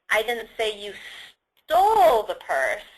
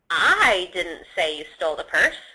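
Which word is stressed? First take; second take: stole; I. First: The stress is on "stole". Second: The stress is on "I".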